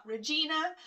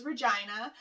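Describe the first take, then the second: First: Regina said "reh-JEE-nuh"; wrong pronunciation. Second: Regina said "reh-JY-nuh"; local pronunciation. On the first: Correcting viewers on the city's name, mispronounced Regina with an EE. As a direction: say Regina to rhyme with Tina. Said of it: "it is Regina". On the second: Telling viewers her city's name, Regina with a long I. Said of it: "It's not Regina". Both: Shown as a demonstration.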